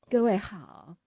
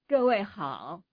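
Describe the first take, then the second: First: The voice is at normal conversational volume. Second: The voice is projected loudly from farther away. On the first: The voice is meant for close, normal speaking. "这是两个不同的说话的方式" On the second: The voice is meant to carry across a large space. "如果我退远一点，我说各位好"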